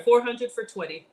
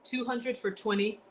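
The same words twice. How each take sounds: First: Four hundred said louder to correct; corrective stress on four. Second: Said in the usual way. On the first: Real, not acted. Correcting herself to chat, stressing four. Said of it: "Two, I'm sorry". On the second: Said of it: "I'm sorry".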